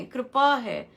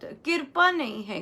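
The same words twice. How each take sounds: First: "कृपा" said kripa, the r straight after k; the correct kripa; right form. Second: "कृपा" said kirpa, with an i before the r; the sloppy kirpa; wrong form. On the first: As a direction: say "कृपा" as kri-pa, no vowel before the r. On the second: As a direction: give the common kirpa for "कृपा". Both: Shown as a demonstration.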